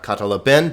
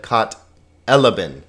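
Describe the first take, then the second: First: Katalaben as kat-a-la-BEN; wrong last-syllable stress. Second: Kat elaben as kat-E-la-ben, falling after; stress on E. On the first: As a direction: push the final syllable of katalaben. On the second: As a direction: hit the "e" that opens elaben. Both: Shown as a demonstration. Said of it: "hit that syllable that has the accent".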